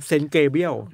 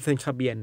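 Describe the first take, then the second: First: The second part begins with 'ge' and ends 'briel'. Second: The second part begins with 'ka' and ends 'bian'. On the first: The speaker calls it right. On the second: The speaker calls it wrong.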